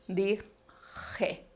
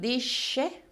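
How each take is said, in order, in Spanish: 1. La consonante del medio es un raspado gutural. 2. La consonante del medio es un sonido 'sh' suave. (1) "retrocede en la cavidad bucal y pasa a ser velar" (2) "aquel sonido eh, prepalatal"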